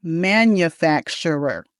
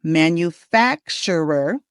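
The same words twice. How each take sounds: First: "manufacturer" slowly as man-yuh-FAK-shur-er; careful, slow "manufacturer", weak second vowel; alternative pronunciation of manufacturer. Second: "manufacturer" slowly as man-yoo-FAK-shur-er; careful, slow "manufacturer", full second vowel; model pronunciation of manufacturer. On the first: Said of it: "They're both okay". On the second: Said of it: "And we say the word". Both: Shown as a demonstration.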